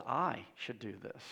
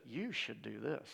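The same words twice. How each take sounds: First: Devil's voice in first person. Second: Whispered devil suggestion. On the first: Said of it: "Instead, he says". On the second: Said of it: "He never comes in and says". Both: Acted.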